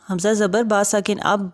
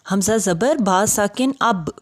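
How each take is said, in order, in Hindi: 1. आख़िरी b नरमी से, बिना ज़ोर के बोला जाता है। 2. आख़िरी b सख़्ती से, हल्के झटके के साथ बोला जाता है। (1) "तो ऐसे नहीं पढ़ना" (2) "जैसे हमने पढ़ा"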